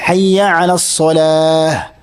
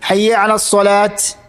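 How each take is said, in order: First: The last word ends in an h sound. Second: The last word ends in a t sound. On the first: The speaker calls it right. "അങ്ങനെയല്ല" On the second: The speaker calls it wrong. "ചില അബദ്ധങ്ങൾ പറ്റാറുണ്ട്"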